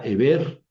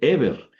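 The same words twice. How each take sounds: First: The stress is on the last syllable. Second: The stress is on the first syllable. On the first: The speaker calls it wrong. "No va sobre la segunda epsilon, porque diría Eber" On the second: The speaker calls it right. "va sobre la primera epsilon. Por eso dice Eber"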